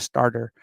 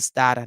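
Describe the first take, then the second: First: The r sounds are clearly pronounced. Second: The r sounds are dropped, Boston style. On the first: This is how outsiders say it. The speaker calls it wrong. "not a starter" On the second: This is how locals say it. The speaker calls it right. "There's no A Rs. We don't pronounce that here in Massachusetts"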